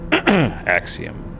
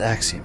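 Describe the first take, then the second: First: It is read in a special performed voice. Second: It is read in an ordinary speaking voice. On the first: The speaker calls it right. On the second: The speaker calls it wrong.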